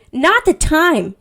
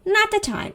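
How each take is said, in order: First: Drawn-out, loud, high scolding; play-acted loud telling-off; mock indignation. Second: High-pitched scolding at normal volume; play-acted high, contained reproach; mock indignant aside. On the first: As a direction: scold loudly, stretching each word. Imagined outburst at Edward's bad timing. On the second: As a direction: repeat the telling-off high but without shouting. Repeats the scolding, softer.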